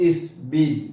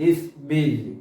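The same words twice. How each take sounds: The two takes are said the same way.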